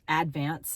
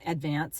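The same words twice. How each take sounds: First: It is said the way locals say it. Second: It is said the common, everyday way. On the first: The speaker calls it right. "that's how they say it" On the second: The speaker calls it wrong. "It's not Advance"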